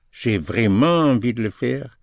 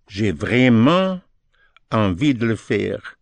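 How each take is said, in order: First: Said in the usual way. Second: Slow, word by word on vraiment; slow demo. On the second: Shown as a demonstration. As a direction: spell out j'ai vraiment slowly, then ease into envie.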